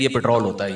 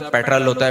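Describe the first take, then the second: First: پٹرول said as pit-ROL, with a full long o; lower, softer retort giving پٹرول as Urdu pit-ROL; local pronunciation. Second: پٹرول said as PET-rəl, with a short weak ending; corrector's pronunciation. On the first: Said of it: "ہم لوگ کیا، یہ دیکھ". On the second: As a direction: imitate a corrector saying پٹرول as English-style PET-rəl. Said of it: "پٹرول نہیں ہوتا". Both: Retold or imitated.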